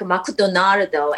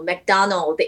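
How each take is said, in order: First: The name has an r sound and added final vowel. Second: The name is said in plain English form.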